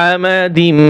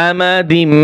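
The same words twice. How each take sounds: The two takes are said the same way.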